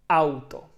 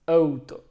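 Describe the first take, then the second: First: The first vowel is said with a wide-open mouth. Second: The first vowel is said with a narrow mouth. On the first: The speaker calls it right. "you have to open wide and say auto" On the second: The speaker calls it wrong. "not wide open, just auto"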